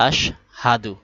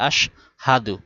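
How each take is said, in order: Both takes have the same delivery.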